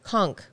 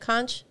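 First: The word ends with a 'k' sound. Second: The word ends with a 'ch' sound. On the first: The speaker calls it wrong. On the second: The speaker calls it right.

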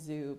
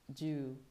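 First: The name starts with a 'z' sound. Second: The name starts with a 'j' sound. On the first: The speaker calls it wrong. "I've been saying zoo" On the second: The speaker calls it right.

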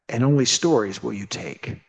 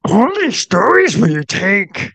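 First: It is said in the speaker's normal voice. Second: It is said in a Yoda impression voice.

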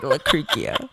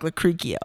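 First: The name is said slowly. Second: The name is said at normal speed.

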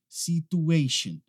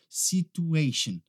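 Both takes have the same delivery.

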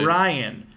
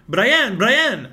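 First: The stress is on the first syllable. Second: The stress is on the second syllable. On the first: The speaker calls it right. "no, it's Brian. Emphasize the Bri" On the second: The speaker calls it wrong. "couldn't pronounce my name very well"

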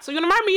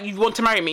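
First: It is said in a playful, teasing tone. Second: It is said in a flat, blunt tone. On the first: The speaker is flirting with the listener. "it would have been like flirtatious" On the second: The speaker is simply stating a fact. "because I was like"

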